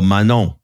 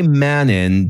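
First: The name is said with a French accent. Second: The name is said with a plain English accent.

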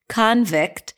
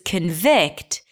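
First: The stress falls on the first syllable. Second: The stress falls on the second syllable. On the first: "the stress is on the first syllable and the second syllable is reduced" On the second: "the first syllable is reduced, a schwa"

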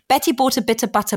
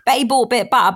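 First: It is said without a London accent. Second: It is said in London accent, T's dropped.

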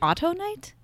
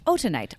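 First: The second syllable sounds like 'to', as in auto. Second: The second syllable sounds like 'tu', not 'to'. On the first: The speaker calls it wrong. "It could also be autonite" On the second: The speaker calls it right. "It's autunite"

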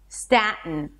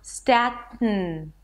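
First: The T is followed by a short vowel. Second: The T is released straight through the nose.

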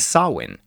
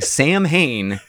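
First: The word is said with a w sound. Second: The word is sounded out as it is spelled. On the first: The speaker calls it right. "It's Samhain" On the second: The speaker calls it wrong. "I have been saying Samhain since I was a fucking child. And no one corrected me"

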